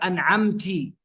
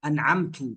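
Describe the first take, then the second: First: The word ends with an i vowel. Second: The word ends with a u vowel. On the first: A woman is the one who blessed. "فالمنعم هي امرأة بهاء التأنيث" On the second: The reciter is the one who blessed. "فأنعمت أي أنا الذي أنعمت"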